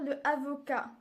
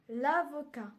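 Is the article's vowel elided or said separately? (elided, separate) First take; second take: separate; elided. First: The article vowel is said before the noun. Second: The article vowel is dropped and linked. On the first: The speaker calls it wrong. "La prononciation est incorrecte" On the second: The speaker calls it right. "on va utiliser le L apostrophe"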